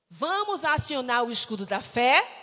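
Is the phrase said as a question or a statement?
question. It is said as a question. It asks the audience whether they will do it.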